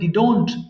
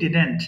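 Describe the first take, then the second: First: The second syllable sounds like 'dont'. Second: The second syllable sounds like 'dent'. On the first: The speaker calls it wrong. "অনেকে ভুল করে উচ্চারণ করে ডিডোন্ট" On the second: The speaker calls it right. "আমরা বলি ডিডেন্ট"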